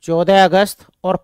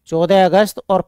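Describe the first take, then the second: No difference in how they are said.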